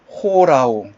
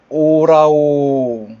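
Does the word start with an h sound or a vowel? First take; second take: h sound; vowel. First: The word starts with an h sound. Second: The word starts directly with a vowel. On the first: The speaker calls it right. "오라오라고 읽어주는 것이 아니라 호라오" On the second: The speaker calls it wrong. "원래는 오라오"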